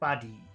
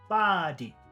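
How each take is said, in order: First: The first sound is short, the second long. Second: The first sound is long, the second short. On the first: "If we did short long" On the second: "If we did long and short"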